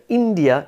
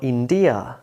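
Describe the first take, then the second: First: "India" stressed as IN-dia; front-stressed "India"; first-syllable stress. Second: "India" stressed as in-DI-a; slow, weight on the middle syllable of "India"; wrong stress on "India". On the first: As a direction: lean on IN in "India". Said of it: "of course you say India". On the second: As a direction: misplace the stress: "India" as in-DEE-a. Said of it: "not India". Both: Shown as a demonstration.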